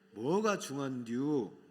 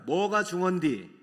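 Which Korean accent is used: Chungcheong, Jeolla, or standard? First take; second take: Chungcheong; Jeolla. First: It is said in a Chungcheong dialect accent. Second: It is said in a Jeolla dialect accent. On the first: "그러면 충청도는 뭐예요?" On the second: "이게 어느 나라 사투리죠? 전라도"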